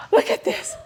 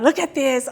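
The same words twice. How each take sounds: First: Hushed, breathy aside; mock whisper. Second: Said in the usual way. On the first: Visitor whispering to a friend at the museum, mock hushed. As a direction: whisper it like a visitor sharing a find. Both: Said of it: "People come to Bonsai Museum".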